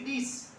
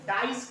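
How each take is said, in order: First: The vowel is a short 'ih' sound. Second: The vowel is the long 'eye' sound. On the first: The speaker calls it wrong. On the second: The speaker calls it right.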